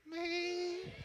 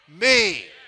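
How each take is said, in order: First: It is said in a meek, timid voice. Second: It is said in a bold, confident voice.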